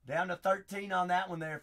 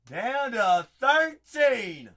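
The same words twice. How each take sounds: First: Said in the usual way. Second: Loud, slow, higher hype announcement; slow loud hype call; drawn-out hype call. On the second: Real, not acted. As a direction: stretch it out like a ring announcer. Repeats, hyped announcement.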